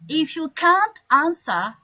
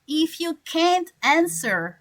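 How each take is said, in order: First: It is said in a British accent. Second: It is said in an American accent. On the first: "People from Australia, England, Ireland, or Scotland" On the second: "people from America or Canada, they they will say"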